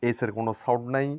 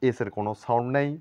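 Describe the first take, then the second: Both takes have the same delivery.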